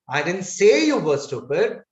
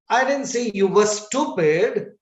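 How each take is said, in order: First: The word say carries the main stress. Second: The word stupid carries the main stress. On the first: "So I'm putting stress on the word say" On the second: "I said you were good"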